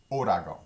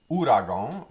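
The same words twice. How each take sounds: First: Ouragan said with a d-like r, odɑɡo, falling; Louisiana pronunciation. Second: Ouragan with a French r, rising; ouragan, said the standard way; standard pronunciation. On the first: Teacher giving students the Louisiana ouragan. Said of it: "Louisianians typically pronounce it". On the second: Teacher contrasting ouragan forms for students. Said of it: "sometimes pronounced like that". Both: Shown as a demonstration.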